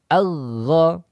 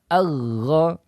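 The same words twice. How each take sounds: First: The consonant is a flowing, continuous friction sound. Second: The consonant is a flowing, continuous friction sound.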